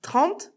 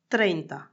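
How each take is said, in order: First: Said in the usual way. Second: "treinta" dit à l'espagnole, r roulé; Spanish pronunciation. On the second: Shown as a demonstration. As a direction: prononcez "treinta" en espagnol, plus bas. ("treinta" à l'espagnole, un peu plus bas) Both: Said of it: "Je répète".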